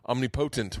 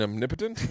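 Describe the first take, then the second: First: The stress falls on the third syllable. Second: The stress falls on the second syllable. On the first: The speaker calls it wrong. "I was saying uh, omnipotent when I was a kid" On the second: The speaker calls it right. "I think you mean omnipotent?"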